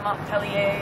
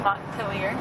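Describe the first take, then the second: First: The name is said with a French pronunciation. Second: The name is said with an English pronunciation. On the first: The speaker calls it wrong. "not Montpellier or any other French variation" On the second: The speaker calls it right. "which we learned how to say properly"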